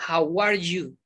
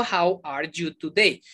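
First: "How are you?" joined as one unit; linked together. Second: "How are you today?" slow and unlinked; word by word. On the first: Teacher showing learners linkers, words joined in one. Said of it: "La uno toda". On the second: Teacher contrasting what not to say, slowly word by word. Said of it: "Yo no digo". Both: Shown as a demonstration.

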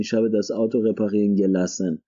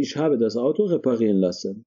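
First: Said in the usual way. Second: Slow, careful model of "ich habe das Auto reparieren lassen"; correct model sentence. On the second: Shown as a demonstration. Teacher models the correct German sentence slowly for students.

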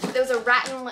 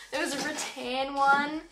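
First: Rattan slipped out as RAT-n; bogan pronunciation. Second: Rattan corrected to ruh-TAN; preferred pronunciation. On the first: Vlogger describing the other lamp, rattan as bogan RAT-n. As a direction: stress the first syllable of rattan, RAT-n. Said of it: "that sounds so bogan". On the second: Vlogger correcting the bogan version, rattan as ruh-TAN. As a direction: stress the second syllable of rattan, ruh-TAN. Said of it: "I don't know if, if that's how you say it". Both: Shown as a demonstration.

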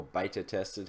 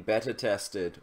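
First: "beta" as BAY-tuh, softer aside; American pronunciation of beta. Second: "beta" with a short first vowel, like BET-uh; own pronunciation of beta. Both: Shown as a demonstration. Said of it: "however you Americans say it".

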